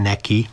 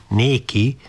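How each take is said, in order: First: Said in the usual way. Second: Néki with a long, open é and a slight lift; old-fashioned néki. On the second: Shown as a demonstration. Father teasing the priest, long é in néki. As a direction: say néki, not neki, stretching the é. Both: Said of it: "s vajon néki, nem neki, néki".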